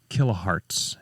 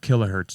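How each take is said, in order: First: The ending sounds like the word hearts. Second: The ending sounds like the unit hertz. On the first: The speaker calls it right. "excuse me, kilohertz. Like your heart" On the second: The speaker calls it wrong. "I said that wrong"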